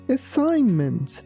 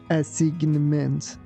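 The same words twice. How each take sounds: First: The g sound is silent in the word. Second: The g sound is pronounced in the word. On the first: The speaker calls it right. "We say assignment. letter G is silent" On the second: The speaker calls it wrong. "We don't say assignment"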